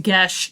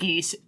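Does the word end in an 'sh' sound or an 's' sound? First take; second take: sh; s. First: The word ends with an 'sh' sound. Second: The word ends with an 's' sound. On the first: The speaker calls it right. "We know it's Gesh" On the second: The speaker calls it wrong. "not Geese"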